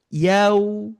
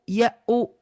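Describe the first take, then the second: First: It glides softly as one smooth syllable. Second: It is split into two separate, forced parts. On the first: The speaker calls it right. "tapi lembut" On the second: The speaker calls it wrong. "kayak gini... Bukan"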